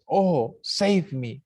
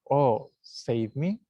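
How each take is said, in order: First: It is said with exclamatory force. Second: It is said without exclamatory force. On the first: The speaker calls it right. "It's, oh, save me. ... exclamation" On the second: The speaker calls it wrong. "It's not, oh, save me"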